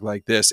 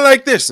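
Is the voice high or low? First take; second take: low; high. First: The voice is put on at a low pitch. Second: The voice is put on at a high pitch. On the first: "then he can come down and he can talk like this" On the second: "he can go to talking like this"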